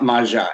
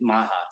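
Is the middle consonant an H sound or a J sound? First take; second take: J sound; H sound. First: The middle consonant is a J sound. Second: The middle consonant is an H sound. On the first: The speaker calls it right. "it's Ma- Maja, M A J A" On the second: The speaker calls it wrong. "everybody thinks it's like Baja"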